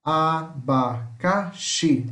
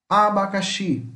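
First: "Abacaxi" slowly as a, ba, ca, xi; syllable by syllable. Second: Said in the usual way. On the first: Shown as a demonstration. Teacher separates the new word, "Abacaxi" in four beats. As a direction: leave a gap after each syllable of "Abacaxi". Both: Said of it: "se separa assim".

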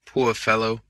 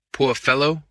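First: POOR low, the phrase sinking; subdued pity. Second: FELLOW lifting at the end; pitying, rising. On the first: Lord over the wounded detective, subdued pity. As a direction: repeat "poor fellow" lower, settling down. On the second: Lord over the wounded detective, pitying with a rise. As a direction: say "fellow" with a slight upward turn. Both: A narrator's reading.

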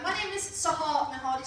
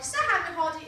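First: Said in the usual way. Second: "Sahar Mehadi" with a rolled Persian r and a throaty h, stress on "Sahar"; Middle Eastern pronunciation. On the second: Shown as a demonstration. Comic showing the audience how her name "Sahar Mehadi" should really sound, with Persian r and h. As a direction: say "Sahar Mehadi" the way it's said in the Middle East, rolling the r. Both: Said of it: "if you're from the Middle East".

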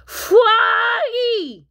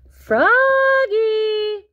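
First: High, loud crying call; bawling, babyish cry for brother; baby's wail. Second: High, loud, long-held call; mom's drawn-out summons. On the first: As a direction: wail the name like a baby. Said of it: "wailed Polly". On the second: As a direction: holler the name from afar, sustained. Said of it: "called his mom". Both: Acted.

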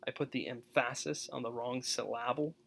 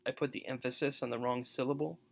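First: EmPHASis and sylLABle, stressed on the middle syllable; misplaced stress. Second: Said in the usual way. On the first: Shown as a demonstration. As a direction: stress "emphasis" as em-FASS-is and "syllable" as sil-LAB-le. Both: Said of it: "demonstrates the, you know, how stresses work".

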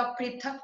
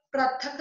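First: Said in the usual way. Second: पृथक said "prathak"; wrong vowel. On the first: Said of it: "होता है". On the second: Shown as a demonstration. Teacher correcting a mistake, पृथक as "prathak". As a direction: put "pra" for "pri" in पृथक. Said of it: "नहीं होता".

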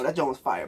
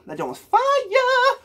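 First: Said in the usual way. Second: High, slow, stretched hype cry; hyped shout. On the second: Real, not acted. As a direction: sing out your praise, dragging fire.

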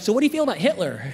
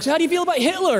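First: Casual, quick lead-in to a question; easing in. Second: High, eager blurted question; blunt plunge. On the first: Comic easing his seatmate into a touchy topic, casual quick question. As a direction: slip the question in lightly, only slightly raised. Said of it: "I'm trying to ease into the situation". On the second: Comic plunging into awkward talk with his seatmate, high eager blurt. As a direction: jump right in with it, pitched way up. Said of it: "just get awkward, let's do it". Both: Retold or imitated.

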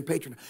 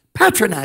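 First: Patronize with a long a, PAY-tronize; first vowel as in pay. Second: PATRONIZE with a short a, PAT-ronize; first vowel as in pat. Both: Shown as a demonstration. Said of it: "I keep saying patronize".

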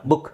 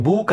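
First: ಬುಕ್ with a brief, short u. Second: ಬೂಕ್ with the oo stretched long; wrong long oo. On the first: Teacher correcting book to its short u. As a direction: cut the vowel of ಬುಕ್ short. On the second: Teacher showing how not to say book, long oo. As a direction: draw out the vowel in ಬೂಕ್. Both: Shown as a demonstration. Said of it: "ಚಿಕ್ಕ ಬೂಕ್ ಅಲ್ಲ".

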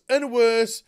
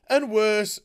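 No difference in how they are said.

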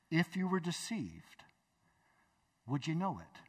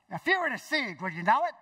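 First: Said in the usual way. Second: High, punchy imitation of a friend; friend's way of talking. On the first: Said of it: "Think about that". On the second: Friend challenges Bob about deception, in imitated voice. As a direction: put on the friend's voice, rising at the end. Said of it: "this is how he talks".

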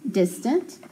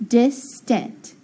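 First: Said in the usual way. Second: "distant" in two separated beats, dis, tent; teacher slowly splitting "distant" into syllables. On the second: Shown as a demonstration. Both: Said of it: "So I can say".

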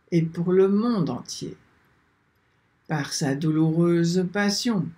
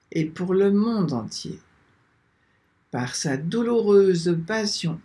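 The two takes are said the same way.

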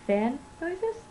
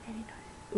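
First: "Fan" said clearly, not "Fanny", with a higher questioning rise; questioning "Fan noises?", the "Fan" cut short; corrected word. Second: Quiet, under-the-breath repeat of "Fanny noises"; softer double take on "Fanny"; muttered realization. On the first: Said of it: "I didn't mean that". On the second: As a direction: catch the slip, say "Fanny" barely aloud. Ooh, I didn't mean that. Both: Real, not acted.

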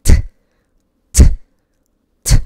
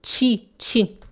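First: "t" as a crisp voiceless tap, no vowel; correct t. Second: "ti" as a soft Brazilian "chee"; wrong t. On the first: Teacher shows what must be said, bare "t". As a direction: click out a bare "t" with a puff. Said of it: "Eu tenho que falar t". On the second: Teacher shows the mistake, "ti" as chee. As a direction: add an ee after the consonant: "ti" as chi. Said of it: "Se você fala". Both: Shown as a demonstration.

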